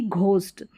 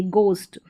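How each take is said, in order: First: "घोस्ट" with an aspirated gh; wrong ghost. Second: "गोस्ट" with a plain g, h silent; correct ghost. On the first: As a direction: say "घोस्ट" with a breathy gh sound, the wrong way. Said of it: "ना कि घोस्ट". ("घोस्ट" में घ की गलत आवाज़) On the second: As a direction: say "गोस्ट" starting with a hard unaspirated g. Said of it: "गोस्ट ना कि घोस्ट". ("गोस्ट" में ग बोलें, घ नहीं) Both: Shown as a demonstration.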